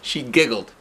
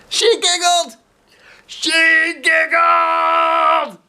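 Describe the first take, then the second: First: Said in the usual way. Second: High, loud delighted exclaim; excited cry. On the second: Shown as a demonstration. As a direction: burst out with joy at the end.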